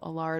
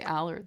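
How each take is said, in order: First: The name is said with a light French accent. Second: The name is said with an American accent. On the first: "most people just say" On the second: "A lot of my American friends say"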